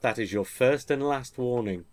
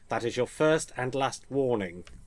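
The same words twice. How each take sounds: First: It is read in the speaker's ordinary voice. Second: It is said in an imitated character voice.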